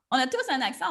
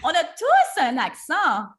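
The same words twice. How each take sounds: First: Said in the usual way. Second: "tous" punched loud and slow; stress on tous. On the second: Real, not acted. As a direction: hit the word "tous" hard, slowly.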